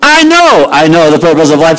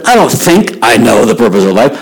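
First: First "know" held and punched with certainty; stress on KNOW. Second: "think" picked out as the doubted word; stress on THINK. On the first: Girl insists to doubting couple, stressing "know". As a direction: hit the first "know" hard, utterly sure. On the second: Girl corrects doubting couple, stressing "think". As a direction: lean on "think", as if rejecting that word. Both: Retold or imitated.

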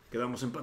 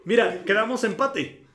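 First: Said in the usual way. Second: Emphatic announcement. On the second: Real, not acted.

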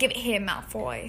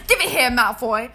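First: Understated put-on British; gentle British accent. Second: Loud, forceful put-on British; aggressive British accent. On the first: Host redoing the only phrase they have, gentle British accent. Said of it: "are a little gentle". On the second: Host quoting Harry Potter to find the accent, aggressive British. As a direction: throw yourself into a pushy British accent. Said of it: "We were being really aggressive before".

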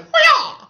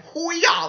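First: "Hoo-yah" screamed much higher and louder, over the top; bigger mock battle cry. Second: Higher, louder "Hoo-yah" yelled like a fighter; mock battle cry. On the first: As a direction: blast "Hoo-yah" at full volume, hammed-up. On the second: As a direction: shout "Hoo-yah" as a cocky war cry. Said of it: "he was like".

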